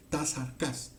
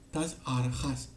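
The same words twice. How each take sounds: First: "Tas arcas" with a hard k sound; arcas pronunciation. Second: "Tas arjas" with a throaty j, like the Spanish jota; arjas pronunciation. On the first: Teacher giving the other reading, "arcas" with a hard k. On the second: Teacher reading the Greek aloud, "arjas" with a jota sound. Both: Shown as a demonstration. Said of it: "tiene otra fonética posible".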